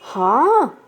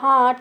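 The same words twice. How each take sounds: First: It is said with a questioning tune. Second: It is said with a plain statement tune. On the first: It asks for confirmation. "प्रश्नवाचक शब्द में वही हाँ हम कैसे बोलेंगे? हाँ ऐसा" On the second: It simply agrees. "सामान्य कथन में जैसे हमने किसी चीज़ के लिए बोला"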